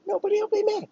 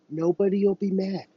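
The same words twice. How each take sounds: First: High falsetto coo, much higher; cooing parent. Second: Lightly raised, reassuring parent voice; gentle parent. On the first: Parent cooing to a frightened child, falsetto. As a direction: sing it sweetly like to a toddler. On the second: Parent reassuring child, lightly voiced reassurance. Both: Pretend. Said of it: "Just like a child with their parent".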